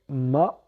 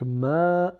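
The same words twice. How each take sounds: First: The vowel is short. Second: The vowel is drawn out long. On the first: "on a le mim avec le A" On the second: "allongé par le alif en forme d'apostrophe"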